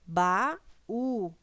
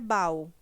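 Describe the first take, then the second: First: The two vowels fall in separate syllables. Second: The two vowels glide together in one syllable. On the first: The speaker calls it right. "O hiato é quando nós temos, né, duas vogais juntas e na hora de pronunciar, elas são pronunciadas de maneira separada" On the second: The speaker calls it wrong. "Seria a vogal e uma semivogal numa mesma sílaba"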